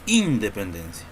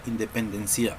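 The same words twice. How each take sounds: First: The stress is on the first syllable. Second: The stress is on the last syllable. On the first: "Nosotros no decimos independencia" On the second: "Tampoco decimos"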